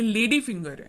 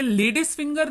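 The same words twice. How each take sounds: First: लेडी finger with no S after लेडी; correct form. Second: लेडीज finger with an S sound closing लेडीज; wrong form. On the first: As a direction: say लेडी finger, लेडी ending on the vowel. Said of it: "ये लेडी finger है". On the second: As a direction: say लेडीज finger with the plural ending. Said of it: "ये लेडीज finger नहीं है". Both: Shown as a demonstration.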